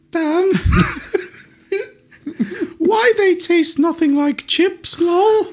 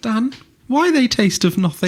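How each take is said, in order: First: High, slow mocking whine; mock girlfriend voice, high and drawn out; girlfriend's voice. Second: High squeaky whine; teasing mock whine; mocking girlfriend voice. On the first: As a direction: mimic her in a squeaky mocking tone. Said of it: "she looked at me and said". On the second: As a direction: parrot her in a silly high voice. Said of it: "Mark mimics the girlfriend's whine".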